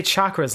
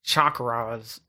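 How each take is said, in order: First: "chakras" said quickly with a short, light second syllable; everyday "chakras", R passed over lightly; chakras, lighter R. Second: "chakras" stretched out with a hard, heavy R; mock American R in chakras. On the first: Shown as a demonstration. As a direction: say "chakras" without grinding the R. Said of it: "you wouldn't say chakras like that". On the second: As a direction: imitate an overdone American R in "chakras". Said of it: "I don't even say chakras like that".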